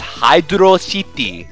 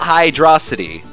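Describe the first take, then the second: First: It is said as two separate words. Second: It is said as one blended word. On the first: The speaker calls it right. "They separate the Hydro and City" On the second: The speaker calls it wrong. "not Hydrocity"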